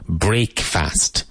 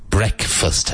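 First: It is said as two separate words. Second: It is said as one reduced word. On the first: It shows the literal parts of the word. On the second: It is the normal everyday pronunciation. "but always pronounced breakfast"

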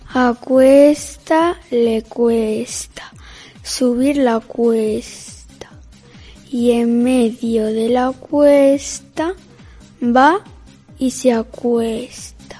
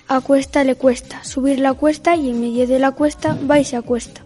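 First: It is said slowly. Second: It is said at normal speed.

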